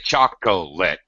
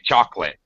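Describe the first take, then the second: First: The middle syllable is said in full. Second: The middle syllable is dropped. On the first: The speaker calls it wrong. "We don't really say chocolate" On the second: The speaker calls it right. "We say chocolate"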